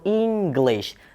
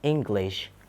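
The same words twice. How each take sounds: First: The first vowel is tense. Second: The first vowel is relaxed. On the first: The speaker calls it wrong. "That is incorrect" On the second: The speaker calls it right. "relax i"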